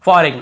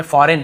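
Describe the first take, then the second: First: फॉरेन said as "fo-reg-nuh"; G sounded. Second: Said in the usual way. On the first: Shown as a demonstration. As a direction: voice the silent G in फॉरेन. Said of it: "ऐसे नहीं पढ़ने में". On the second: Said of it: "फॉरेन पढ़ना है".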